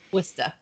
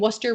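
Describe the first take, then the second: First: It is said in a Massachusetts accent. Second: It is said in a Connecticut accent. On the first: The speaker calls it right. "you can't say Worcester without saying it in a Massachusetts accent" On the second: The speaker calls it wrong. "I feel like you didn't say that correctly"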